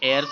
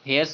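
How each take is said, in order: First: The word begins with a vowel sound. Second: The word begins with an h sound. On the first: The speaker calls it right. "ये एयर्स होता है" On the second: The speaker calls it wrong. "हेयर्स नहीं होता है"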